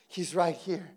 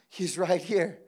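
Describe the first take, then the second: No difference in how they are said.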